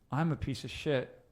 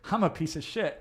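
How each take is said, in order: First: The tone is gloomy and matches the words. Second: The tone is cheerful and contradicts the words. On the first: The feeling agrees with the harsh words. The speaker calls it wrong. "You're going to feel a certain way" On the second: The feeling overrides the harsh words. The speaker calls it right. "the emotional tonality of that will feel, will contradict the language"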